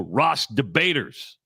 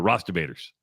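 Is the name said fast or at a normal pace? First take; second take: normal; fast. First: The name is said at a normal pace. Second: The name is said very fast.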